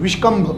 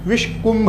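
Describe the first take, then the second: First: The middle syllable has an 'a' vowel: kambh. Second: The middle syllable has a 'u' vowel: kumbh. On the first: The speaker calls it wrong. "कोई कोई इसका उच्चारण विषकंभ योग भी कहते हैं" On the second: The speaker calls it right. "विषकंभ नहीं, विषकुंभ योग"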